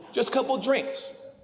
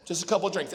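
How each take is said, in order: First: Higher, slow wheedling plea; coaxing brother, drawn out. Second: Said in the usual way. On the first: Retold or imitated. Mimicking his brother's pitch for one more night out, slow and higher. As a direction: stretch it out like talking someone into a night out. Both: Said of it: "this is how Dustin gets me to go out".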